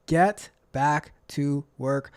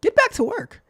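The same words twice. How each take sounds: First: Slow, word-by-word order; annoying voice. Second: High, quick nagging order; high-pitched annoying nag. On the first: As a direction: spell out the nag, one slow word at a time. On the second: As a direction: pester them sharply, pitched way up. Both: Acted. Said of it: "my annoying voice comes saying".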